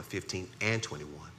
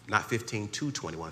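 First: "and" firmly stressed, correcting "to". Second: Said in the usual way. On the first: Shown as a demonstration. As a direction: lean on the word "and".

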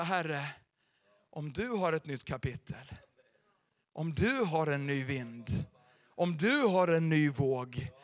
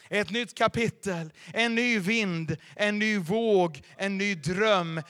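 First: Humble prayer. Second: Slow, loud, each phrase hammered out; booming proclamation. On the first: Pretend. Humble prayer quoted in sermon. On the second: Acted. Pastor thundering the promises to the congregation, slow and loud. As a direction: call out each promise like a herald.

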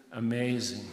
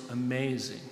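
No difference in how they are said.

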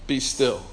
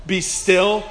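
First: Low, soft order; hushed command. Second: Understated, even order; effortless command. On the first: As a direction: drop to a deep, quiet command. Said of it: "he tells the waves". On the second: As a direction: command plainly, with a slight lift at the end. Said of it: "all he has to do is". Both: Acted.

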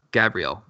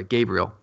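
First: "Gabriel" with a short a, as in "gab"; "Gabriel" said as "GAB-ree-el"; mispronounced name. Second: "Gabriel" with a long a, as in "gay"; "Gabriel" said as "GAY-bree-el"; corrected pronunciation. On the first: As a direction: say "Gabriel" starting like "gab", not "gay". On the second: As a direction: say "Gabriel" starting like "gay", not "gab". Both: Real, not acted. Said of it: "or sorry, Gabriel".

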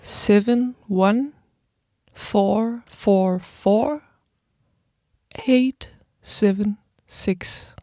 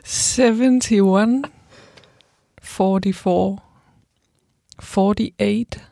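First: Slow, digit by digit; reading digits. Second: Slow, careful number reading; reading phone number. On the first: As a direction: spell out each digit slowly. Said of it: "this time I'll say it, like, digit by digit". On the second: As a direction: read the number out slowly. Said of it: "I like it when you read phone numbers". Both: Shown as a demonstration.

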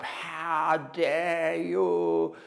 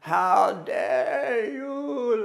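First: Slow, drawn-out, higher wounded challenge; pained outrage. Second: Much higher, very slow, breaking into a cry; anguished crying outcry. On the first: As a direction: stretch each word like a fresh wound. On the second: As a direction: wail it out, grief turning to accusation. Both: Retold or imitated. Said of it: "like that".

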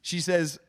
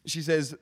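Both takes have the same delivery.

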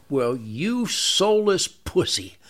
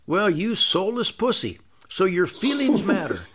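First: Drawn out slowly, each word weighed with scorn; slow contempt. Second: An even, unbothered calm, barely above his usual talk; very calmly. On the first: Pretend. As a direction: stare him down and drag every word out. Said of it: "Look him right in the eye and go". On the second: Retold or imitated. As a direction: say the insult as calmly as ordering coffee. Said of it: "I very, very calmly say".

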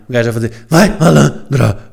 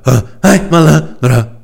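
First: Said in the usual way. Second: Slow, drawn-out funk chant; slow, wheezy sung hook. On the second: Pretend. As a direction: gasp it out as you sing. Sings the hook again. (sung, refrão cantado, lento e ofegante)

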